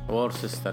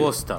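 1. تُقرأ حرفاً بحرف، وفيها راء. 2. تُقال مختصرة، بدون صوت راء. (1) "هي مكتوبة كأنها وورسستر" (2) "الآر ما تنطق الأولى"

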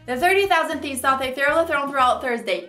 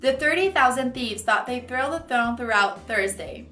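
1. A frase é dita em um ritmo muito rápido. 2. A frase é dita em um ritmo moderadamente rápido. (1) "Super fast" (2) "A little bit faster"

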